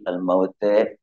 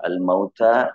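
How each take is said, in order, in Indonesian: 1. Vokal akhirnya berada di antara a dan e. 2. Vokal akhirnya adalah a terbuka.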